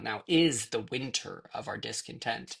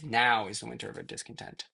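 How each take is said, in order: First: The stress falls on the second word. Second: The stress falls on the first word. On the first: The speaker calls it wrong. "So it's not" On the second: The speaker calls it right.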